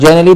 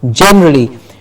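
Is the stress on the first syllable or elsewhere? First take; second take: elsewhere; first. First: The stress is not on the first syllable. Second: The stress is on the first syllable. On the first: The speaker calls it wrong. "Not generally" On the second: The speaker calls it right. "Gen gets a stress"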